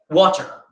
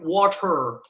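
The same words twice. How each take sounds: First: The word is said in a British accent. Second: The word is said in an American accent. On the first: "that's how Daniel Radcliffe, Emma Watson say it" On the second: "if I would say a true American"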